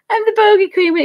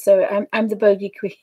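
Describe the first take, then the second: First: Higher and louder, hamming up bogey; playful proud declaration. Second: Said in the usual way. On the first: Real, not acted. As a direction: crown yourself the bogey queen with a grin. Repeats the joke, amused.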